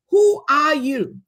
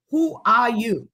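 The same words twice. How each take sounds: First: Who are you, slow, louder and higher, with weight on who; emphatic question. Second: Said in the usual way. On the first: Real, not acted. Challenging the young graduates, a slow and emphatic question.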